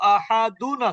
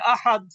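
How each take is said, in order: First: The word ends with a full '-un' ending. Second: The word ends on a bare final consonant. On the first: The reading continues without stopping. "কুল হুয়াল্লাহু আহাদুন আছে" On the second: The reader stops on this word. "আহাদুন থামলে কি হবে?"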